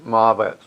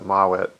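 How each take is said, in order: First: The middle consonant is a v sound. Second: The middle consonant is a w sound. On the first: The speaker calls it wrong. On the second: The speaker calls it right.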